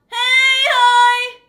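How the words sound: The voice sounds tight and squeezed.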